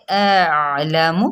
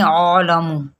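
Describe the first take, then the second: First: اعلم slow, hamza then clear عین; correct version. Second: عالم with a long ع vowel; wrong version. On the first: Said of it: "تو کیسے؟". (درست ادائیگی) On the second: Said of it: "عالم پھر غلط ہو جائے گا". (غلط ادائیگی) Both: Shown as a demonstration.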